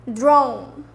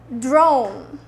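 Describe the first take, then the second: No difference in how they are said.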